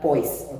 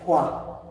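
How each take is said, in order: First: It ends with an audible z sound. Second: It ends in a vowel with no final consonant. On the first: The speaker calls it wrong. "not poise" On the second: The speaker calls it right. "but the pronunciation is poa. Correct pronunciation"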